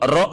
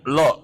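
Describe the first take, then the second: First: It starts with an R sound. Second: It starts with an L sound. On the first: The speaker calls it right. "ro nggak bisa" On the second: The speaker calls it wrong. "Ngomongnya lo"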